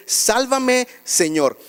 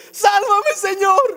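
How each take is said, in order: First: Said in the usual way. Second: Agudo y exclamado, como quien se hunde; grito con signos de admiración. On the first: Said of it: "Pero dice signos de admiración". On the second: Shown as a demonstration. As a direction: grita pidiendo auxilio con la voz muy arriba. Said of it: "dice signos de admiración, sería algo como". (clamor agudo y desesperado, actuado)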